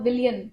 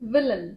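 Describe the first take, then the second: First: The word is said with three syllables. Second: The word is said with two syllables. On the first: The speaker calls it wrong. "ऐसे ही आपने बोला था" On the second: The speaker calls it right. "So it's"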